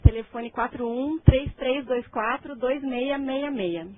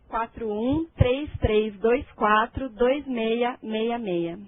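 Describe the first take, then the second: First: The number is said at normal speed. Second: The number is said more slowly.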